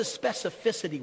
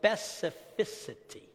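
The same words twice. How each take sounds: First: Said in the usual way. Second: "specificity" slow and careful, softer. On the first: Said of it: "I can't say it fast". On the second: Shown as a demonstration. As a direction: say "specificity" slowly, syllable by syllable. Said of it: "very slow to say it right".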